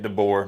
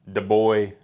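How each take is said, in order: First: The name ends with an 'er' sound. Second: The name ends with an 'oy' sound. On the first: The speaker calls it right. "That's how you say it" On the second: The speaker calls it wrong. "not DeBoy"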